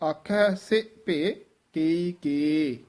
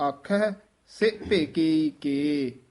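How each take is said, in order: No difference in how they are said.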